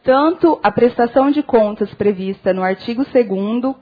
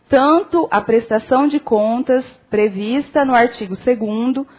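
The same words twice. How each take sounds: First: It is read at an ordinary, quicker speed. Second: It is read slowly, with deliberate pauses.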